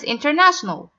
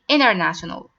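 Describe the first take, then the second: First: The T after the N is clearly pronounced. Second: The T after the N is dropped entirely. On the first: "This word is" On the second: "Americans say"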